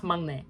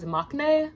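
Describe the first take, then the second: First: Mangne with an NG before the N; mangne, humming into the second syllable; correct nasal pronunciation. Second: Maknae with a K before the N; maknae, K closing the first syllable; commonly heard pronunciation. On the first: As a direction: say mangne, k softened to ng. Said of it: "didn't know it was pronounced mangne". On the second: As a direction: say maknae with a stopped k. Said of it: "always heard it pronounced as maknae". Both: Shown as a demonstration.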